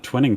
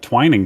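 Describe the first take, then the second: First: The first syllable sounds like the word twin. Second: The first syllable sounds like the word twine. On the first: The speaker calls it wrong. "it's not the twinning twins" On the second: The speaker calls it right. "It's the twining"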